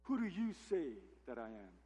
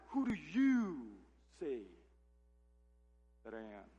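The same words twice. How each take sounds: First: Said in the usual way. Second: Slow, with "you" leaned on hard; stress on you. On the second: Shown as a demonstration. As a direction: draw out "Who do you" and land on "you". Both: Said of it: "the "you" here in the Greek is emphatic".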